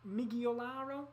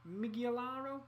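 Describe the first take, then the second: No difference in how they are said.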